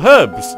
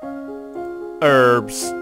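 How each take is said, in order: First: It begins with a clear h sound. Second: It begins with a vowel, no h sound.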